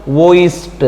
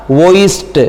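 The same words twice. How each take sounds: First: वॉइस्ड with a crisp t at the end. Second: वॉइस्ड repeated, ending on a crisp t. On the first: Teacher to students, modelling the ed ending: crisp t. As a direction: end वॉइस्ड on a sharp t, not d. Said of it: "अब इसका उच्चारण क्या होगा?". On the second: Teacher repeating the answer for students: crisp t ending. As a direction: say वॉइस्ड again with a clear final t. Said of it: "क्या होगा?". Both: Shown as a demonstration.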